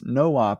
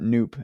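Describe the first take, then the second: First: It is said as two separate syllables. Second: It is said as one syllable. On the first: "it's no op because it's a no operation" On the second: "always pronounced that noop"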